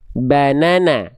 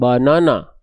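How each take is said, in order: First: The vowels are thin and bright, like 'a'. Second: The vowels are dark and rounded, like 'o'. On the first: The speaker calls it right. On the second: The speaker calls it wrong. "bukan bonono"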